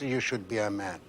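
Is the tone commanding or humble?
commanding. It is said in a stern, commanding tone. It is an order given to someone. The speaker calls it wrong. "not even with the tone of voice"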